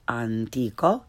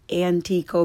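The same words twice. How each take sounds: First: "antico" with open ah, lower; correct Italian pronunciation. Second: "antico" starting like English ant; learner's mispronunciation. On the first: Teacher corrects beginners, "antico" with Italian ah. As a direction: say "antico" as ahn-TEE-ko. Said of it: "follow it with the correct pronunciation". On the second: Teacher shows beginners' mistake, "antico" with English short a. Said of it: "first the way most people". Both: Shown as a demonstration.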